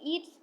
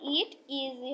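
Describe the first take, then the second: First: It is said as one contracted word. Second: It is said as two full words. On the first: The speaker calls it wrong. "অনেকে ইটস পড়ে, এটাও কিন্তু সঠিক উচ্চারণ না" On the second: The speaker calls it right. "এটা ইট ইজি হবে"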